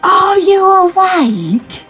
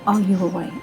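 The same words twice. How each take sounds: First: It is said very loudly. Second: It is said quietly.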